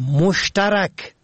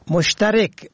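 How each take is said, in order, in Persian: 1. مصوت قبل از k پایانی a است. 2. مصوت قبل از k پایانی i است. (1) "به فتح چهارم" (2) "به کسر چهارم یعنی کسر ری"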